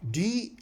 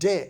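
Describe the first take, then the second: First: It is said as the letter name. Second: It is said as the bare consonant sound. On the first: "D as a letter" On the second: "D as a sound"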